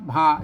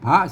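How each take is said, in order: First: The syllable has a low tone. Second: The syllable has a rising tone. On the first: "ตัวหลังมันพระนะครับพระเสียงเอก" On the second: "ตัวหน้าพระนะครับพระเสียงจัตวา"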